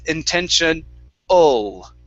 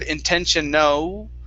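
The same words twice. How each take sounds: First: The ending has an uh sound plus L. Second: The ending has an oo sound. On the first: The speaker calls it right. "it's an uh sound plus an L" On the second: The speaker calls it wrong. "you had pronounced an oo"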